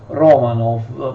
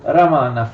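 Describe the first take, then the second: First: The first vowel is a clear 'o' sound. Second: The first vowel sounds like an 'a'. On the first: This is the usual Italian way. "in genere in italiano eh, pronunciamo Romanov" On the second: This is the original Russian way. "ma di fatto in russo si dice Ramanov"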